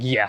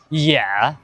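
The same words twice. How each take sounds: First: It sounds mocking and sarcastic. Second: It sounds like a questioning check. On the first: The speaker means the opposite. "You're like sarcastic" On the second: The speaker is checking what was meant. "you're clarifying"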